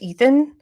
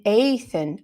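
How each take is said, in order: First: "Ethan" starting with a long EE; guessed name pronunciation. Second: "Athan" starting with a long AY; name pronounced correctly. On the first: Real, not acted. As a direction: say "Ethan" as EE-thun. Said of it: "how do you say that?". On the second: Shown as a demonstration. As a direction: say "Athan" like Nathan minus the N. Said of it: "It's Nathan without the n".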